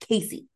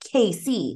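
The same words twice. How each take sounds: First: It sounds like one ordinary two-syllable name. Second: It sounds like the two letters K and C. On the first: "It's not Casey" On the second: "they all say it like Casey. Like it's Casey"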